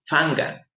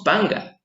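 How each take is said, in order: First: "fanga" slowly, p as f; "fanga" starting on a soft f; "fanga" with f, drawn out; correct f sound. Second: "panga" with a plain p; "panga" said with p, not f; "panga" starting on a clear p; wrong p sound. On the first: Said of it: "decimos fanga". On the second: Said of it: "No decimos panga". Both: Shown as a demonstration.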